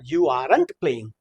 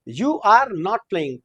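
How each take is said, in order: First: "Are not" is shortened into one syllable. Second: "Are not" is said as two full words.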